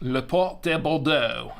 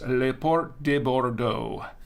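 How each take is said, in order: First: It is said in a put-on French accent. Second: It is said in a plain English accent. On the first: "That's the French accent, right? My fake French accent" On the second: "that's not how I say it"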